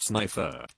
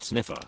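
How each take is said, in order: First: Sniffer said SNY-fer, long i as in sniper; sniffer, rhymes with sniper; correct name pronunciation. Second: Sniffer said SNIFF-er, short i as in sniff; sniffer, first syllable sniff; wrong name pronunciation. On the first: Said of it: "It's pronounced sniffer". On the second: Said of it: "not sniffer". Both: Shown as a demonstration.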